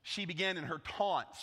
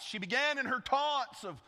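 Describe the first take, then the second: First: Said in the usual way. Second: Began lifted high and louder; raised, louder restart on began; stress on began. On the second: Shown as a demonstration. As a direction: hit began hard.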